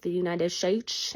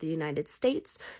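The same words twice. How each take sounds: First: The sounds of the phrase come out jumbled. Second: The sounds of the phrase come out in order. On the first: The speaker calls it wrong. "it'll be like" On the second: The speaker calls it right. "instead of"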